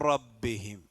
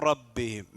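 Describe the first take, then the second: No difference in how they are said.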